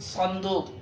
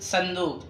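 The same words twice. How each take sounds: First: صندوق with a heavy Arabic emphatic ص; weight the ص of صندوق, dark and emphatic; pronunciation not to use. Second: صندوق with a light s, "sandooq"; Urdu pronunciation. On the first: Teacher shows what Urdu avoids, صندوق with Arabic ص. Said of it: "فلا نقول صندوق بالأردية". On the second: Teacher corrects learners to Urdu, صندوق with plain s. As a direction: start صندوق as if written with سين. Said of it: "بل نقول صندوق". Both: Shown as a demonstration.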